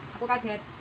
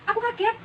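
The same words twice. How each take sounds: First: It is said flatly, without surprise. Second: It is said with lively, surprised intonation. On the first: The speaker calls it wrong. "Jangan kalau kaget terus bilangnya, aku kaget. Hmm, nanti penontonnya malah bosan" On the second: The speaker calls it right. "kalau ceritanya kalian kaget, ya bilangnya, hah, aku kaget"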